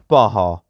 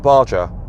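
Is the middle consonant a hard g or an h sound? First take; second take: h; hard g. First: The middle consonant is an h sound. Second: The middle consonant is a hard g. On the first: The speaker calls it right. "I was meant to say Baja" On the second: The speaker calls it wrong. "I've probably pronounced that incorrectly"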